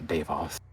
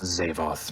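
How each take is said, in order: First: The name begins with a D sound. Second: The name begins with a Z sound. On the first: The speaker calls it wrong. "not Davoth" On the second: The speaker calls it right. "it is pronounced Zavoth"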